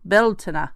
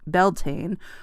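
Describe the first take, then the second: First: It is said with an attempted Irish pronunciation. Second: It is said with a plain English pronunciation.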